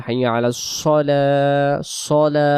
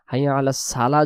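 First: "সলা" drawn out with a thick s and o-like vowel; heavy sad. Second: "সালা" with thin s and open a; wrong light sin. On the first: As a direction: quote the azan with a full sad in "সলা". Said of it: "সদ দিয়ে বলতে হবে". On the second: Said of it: "যদি পড়ি সিন চলে যাবে". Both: Shown as a demonstration.

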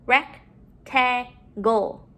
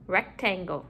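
First: "Rectangle" slowly, in separate chunks; syllable by syllable. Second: Said in the usual way. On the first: Shown as a demonstration. Teacher modeling syllables to put together, broken up. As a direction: split "Rectangle" with a pause after each syllable. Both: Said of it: "let's put our syllables together".

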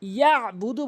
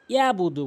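First: ইয়াবুদু with a throat squeeze after ya; correct ayn. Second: ইয়াবুদু with no ayn; smooth open "yaa-budu"; common mispronunciation. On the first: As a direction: press "ya'-budu" from mid-throat. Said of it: "বলতে হবে". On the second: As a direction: glide through ইয়াবুদু without a throat catch. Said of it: "ভুল হচ্ছে যে". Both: Shown as a demonstration.

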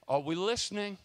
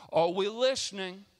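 First: Said in the usual way. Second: "we" punched louder in "Are we listening?"; stress on WE. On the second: Shown as a demonstration. Preacher repeats to the church, stressing "we". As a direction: lean hard on "we", louder.

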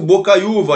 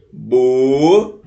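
First: Said in the usual way. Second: "Bocaiúva" very slowly as Bo, cai, ú, va; syllable by syllable. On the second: Shown as a demonstration. Teacher dividing a word for students, "Bocaiúva" slowly syllable by syllable. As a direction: draw out each syllable of "Bocaiúva", holding the ú. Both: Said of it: "Se a gente separar as sílabas".

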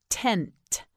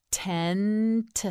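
First: Said in the usual way. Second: "Tent" slowly, held n and separate final t; stretched out. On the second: Shown as a demonstration. Teacher models for learner, "Tent" stretched slowly. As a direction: draw out "Tent" and release the last t on its own. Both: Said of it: "You say it".

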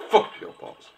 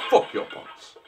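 First: Unvoiced rude whisper. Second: "Fuck your pots." fully whispered again. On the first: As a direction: mutter it under your breath. Whispered rude aside at NPC. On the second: Acted. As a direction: hiss it under your breath. Repeated whispered aside.

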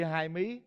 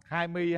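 First: "mí" said with a sharp rising tone; hai mí, rising tone. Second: "mi" said with a flat level tone; hai mi, level tone. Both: Shown as a demonstration. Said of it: "Hai mi nó khác nha".

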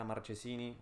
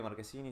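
First: Marchesini with a soft "che" sound; Marchesini, ch as in "chau"; local Spanish pronunciation. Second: Marquesini with a hard k sound; Marquesini, ch read as k; Italian pronunciation. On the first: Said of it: "si estamos acá". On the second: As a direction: say Marquesini the Italian way, "kee" in the middle. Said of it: "Si estamos en Italia". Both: Shown as a demonstration.

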